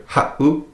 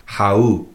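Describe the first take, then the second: First: "ha'u" with a tiny break between ha and u; glottal stop. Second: "ha'u" run together as hau, without a break; no glottal stop. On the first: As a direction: stop the breath briefly inside "ha'u". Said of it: "makes that little glottal stop". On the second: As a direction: glide from ha into u unbroken. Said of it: "take out that seven". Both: Shown as a demonstration.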